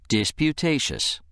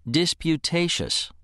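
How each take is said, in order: No difference in how they are said.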